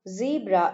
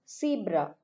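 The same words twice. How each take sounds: First: The word begins with a buzzing z sound. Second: The word begins with a hissing s sound.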